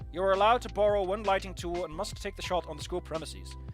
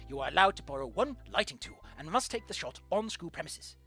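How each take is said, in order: First: It is read in the speaker's own voice. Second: It is read in an imitation of his voice.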